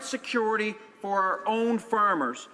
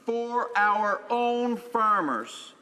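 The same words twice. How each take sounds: First: Said in the usual way. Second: Slow, stress on own; slowed emphatic echo of the phrase; emphatic repeat. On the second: Real, not acted. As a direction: lean hard on own, slowly.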